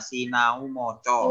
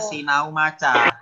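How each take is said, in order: First: The second word's vowels sound like o. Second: The second word's vowels sound like a. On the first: "dalam bahasa Jawa dibacanya Sinau Moco" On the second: "tulisannya Sinau Maca"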